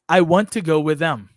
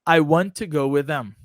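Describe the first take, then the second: The two takes are said the same way.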